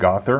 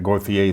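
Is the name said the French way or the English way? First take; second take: English; French. First: The name is said with English pronunciation. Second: The name is said with French pronunciation. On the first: This is how others have been saying it. The speaker calls it wrong. "but I heard" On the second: This is how people in Montreal would say it. The speaker calls it right. "I would pronounce that Gauthier living in Montreal"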